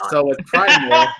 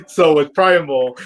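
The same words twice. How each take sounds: First: Words breaking into laughter; laughing. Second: Said in the usual way. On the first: Real, not acted. Starting her review to cohosts, laughing through the words. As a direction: try to talk through a laugh.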